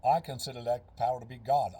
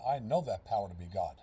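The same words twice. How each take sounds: First: Said in the usual way. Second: "know" weighted and said lower, firmly correcting "consider"; stress on know. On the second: Shown as a demonstration. Coach correcting himself to stress his conviction on "know". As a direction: lean into "know" with low certainty.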